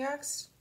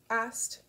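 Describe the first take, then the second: First: "asked" said as "axed"; slip on "asked". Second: Said in the usual way. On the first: Real, not acted. Misspoken word, then corrected.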